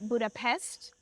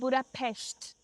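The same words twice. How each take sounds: First: It is said with an English-style pronunciation. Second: It is said with the local Hungarian pronunciation. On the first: The speaker calls it wrong. "they actually don't pronounce it Budapest" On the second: The speaker calls it right. "they pronounce it Budapest"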